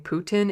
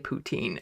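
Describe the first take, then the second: First: The name is said with the usual English pronunciation. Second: The name is said like poutine, French-style.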